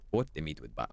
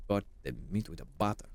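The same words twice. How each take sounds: First: Softer "Put the meat with butter" in a mock Italian accent; poor Italian impression. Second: Quick "Cut the meat with a butter" in a hammed-up Italian accent; light mock Italian accent; poor Italian impression. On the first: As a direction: murmur the recipe like a fake Italian cook. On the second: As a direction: rattle off the recipe like a fake Italian cook. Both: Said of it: "I'm doing a poor Italian impression".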